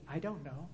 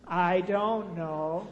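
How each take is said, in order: First: Said in the usual way. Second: "I don't know", each word stretched out slowly and louder; drawn-out I DON'T KNOW. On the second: Shown as a demonstration. Preacher leading congregation in a repeat, "I don't know" slow and drawn out.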